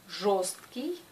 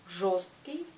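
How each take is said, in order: The two takes are said the same way.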